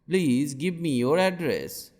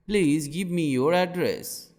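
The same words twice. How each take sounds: The two takes are said the same way.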